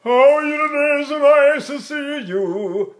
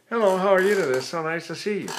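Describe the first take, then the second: First: Much higher, louder, slow at the end; pre-sneeze speech. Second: A hint of a put-on bright greeting with lifted cheeks; mock squeezed-mask greeting. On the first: Teacher speaks the greeting in pre-sneeze position. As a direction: talk from a held pre-sneeze. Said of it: "We'll talk like this". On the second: Singing teacher mocks students chasing the mask, lightly put-on greeting. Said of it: "squeezing the eyes, lifting the cheeks". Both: Shown as a demonstration.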